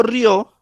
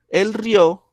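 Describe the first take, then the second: First: "río" glided together as a single syllable, rio; one syllable. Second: "el río" said ri-Ó, two syllables with the stress on the final o; stressed on the last syllable. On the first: Teacher showing the class the one-syllable word, said as one beat. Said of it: "estoy hablando de una sola sílaba". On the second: Teacher showing the class the two-syllable past tense, stress on the final o. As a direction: split "río" into ri and Ó and land on the Ó. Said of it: "El acento está en la última". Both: Shown as a demonstration.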